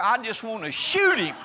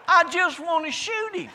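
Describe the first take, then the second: First: Laughing. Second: Hammed-up outburst, pitched way up; mock outburst. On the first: Real, not acted. Joking rant about dog commercials. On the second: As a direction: repeat it much higher and louder in mock fury. Repeated punchline, much higher, louder.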